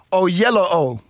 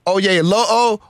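First: Oyelowo with "yellow" in the middle; disputed name pronunciation. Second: Oyelowo with "yay" in the middle; disputed name pronunciation. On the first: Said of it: "Think of O on both sides of yellow". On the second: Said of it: "fighting over the name". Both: Shown as a demonstration.

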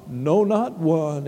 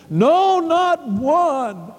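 First: Low, slow echo; subdued refrain. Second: High, ringing declaration; emphatic refrain. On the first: Preacher repeating the refrain to himself and church, low and subdued. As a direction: drop low and say it slowly. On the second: Preacher declaring no one else could heal, high and emphatic. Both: Real, not acted.

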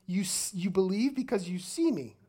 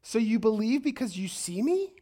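First: "see" stressed, then falling on "me"; statement tune. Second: "me" lifted in a rising, questioning tune; a sarcastic question that rises up to "me". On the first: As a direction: say it as a statement, dropping on "me". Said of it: "but it's a statement". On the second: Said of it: "Question mark". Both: Acted.

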